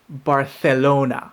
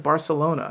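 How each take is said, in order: First: It is said with a local Spanish accent. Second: It is said with a plain English accent. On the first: The speaker calls it right. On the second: The speaker calls it wrong.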